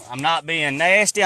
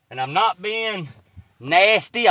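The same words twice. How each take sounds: First: Said in the usual way. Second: NOT and nasty stressed, slow and rising, nasty loud and high; insisting, stressing nasty; not being nasty. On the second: Real, not acted. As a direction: lean hard on not and then nasty. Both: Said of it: "I want y'all to know".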